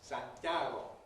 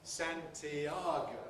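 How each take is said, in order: First: The word is said with three syllables. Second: The word is said with four syllables. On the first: "in Spanish, has three syllables" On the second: "In English, how many syllables does it have? Four"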